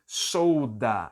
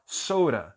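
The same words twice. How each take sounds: First: "soda" said carefully with a clear D; "soda" com D bem claro. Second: "soda" quick, D flapped into a tapped R, "sora"; "soda" rápido, com D virando R; fast soda. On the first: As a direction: say "soda" slowly, full D. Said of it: "Quando eu falo muito rápido". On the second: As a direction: let the D in "soda" slip to an R. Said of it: "o som de D acaba virando um som de R". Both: Shown as a demonstration.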